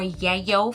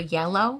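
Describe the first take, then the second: First: The middle L is replaced by a Y sound. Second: The middle L sound is said clearly.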